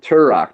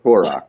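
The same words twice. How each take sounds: First: "Turok" with a "ter" first syllable; "Turok" starting like "turn"; his usual pronunciation. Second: "Turok" with a rounded first syllable; "Turok" starting like "tour"; the rejected pronunciation. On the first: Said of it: "I always pronounce it Turok". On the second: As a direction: say "Turok" as TOR-ok. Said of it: "not Turok". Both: Shown as a demonstration.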